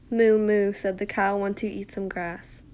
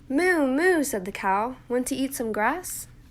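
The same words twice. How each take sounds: First: It is read flatly, with little inflection. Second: It is read expressively, with lively inflection.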